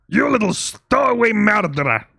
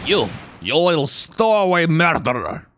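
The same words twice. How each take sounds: First: Higher, louder retry of a Russian sailor; attempted Russian accent. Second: Loud, gruff Russian sailor voice; attempted Russian accent. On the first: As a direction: strain for a big Russian accent, higher pitched. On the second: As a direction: bellow it like a bad stage Russian. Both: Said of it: "can't really do a Russian accent when I'm trying to do that voice".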